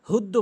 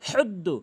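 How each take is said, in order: First: The h is a plain, light breathy h. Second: The h is a raspy h from mid-throat. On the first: The speaker calls it wrong. "হুদ্দু হুদ্দু বলা যাবে না" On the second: The speaker calls it right. "সঠিক উচ্চারণ হচ্ছে হুদ্দু"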